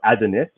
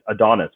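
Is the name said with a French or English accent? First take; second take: French; English. First: It is said with a French accent. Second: It is said with an English accent.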